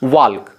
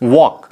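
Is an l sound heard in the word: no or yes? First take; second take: yes; no. First: An l sound is heard in the word. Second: No l sound is heard in the word. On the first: The speaker calls it wrong. "जो कि गलत" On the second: The speaker calls it right. "एल क्या है, silent है"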